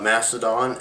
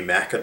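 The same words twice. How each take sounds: First: The middle consonant is a soft S sound. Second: The middle consonant is a hard K sound. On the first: The speaker calls it wrong. "Macedon is" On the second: The speaker calls it right. "actually supposed to be Macedon"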